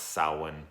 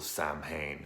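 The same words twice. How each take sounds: First: The word is said in its traditional Irish form. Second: The word is sounded out close to its spelling. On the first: The speaker calls it right. "this is pronounced Samhain" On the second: The speaker calls it wrong. "in part two it was said wrong"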